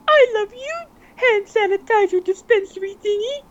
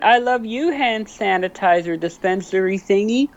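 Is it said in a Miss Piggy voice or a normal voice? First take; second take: Miss Piggy; normal voice. First: It is said in a Miss Piggy voice. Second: It is said in his normal voice.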